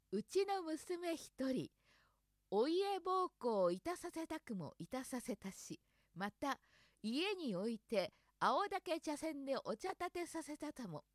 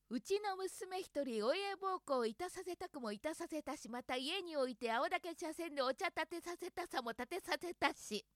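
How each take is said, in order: First: Slow, careful tongue twister; slowly. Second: Said in the usual way. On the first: Shown as a demonstration. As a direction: take it slow, syllable by syllable. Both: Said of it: "ゆっくり言ってみる".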